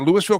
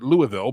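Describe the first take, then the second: First: The name is pronounced the local Colorado way. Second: The name is pronounced the Kentucky way. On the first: This is the name of the town in Colorado. The speaker calls it right. "but we cannot call it Louisville here" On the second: This is the name of the city in Kentucky. The speaker calls it wrong. "Kentucky, you would pronounce it Louisville"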